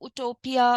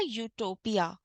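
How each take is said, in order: First: The word begins with a bare oo vowel. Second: The word begins with a y sound. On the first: The speaker calls it wrong. "अगर मैं यूटोपिया नहीं बोलती तो आप शायद इसको उटोपिया" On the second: The speaker calls it right. "लेकिन सही क्या है प्रोनाउंसिएशन इसका? ... तो य से शुरू होने वाला वर्ड है ये"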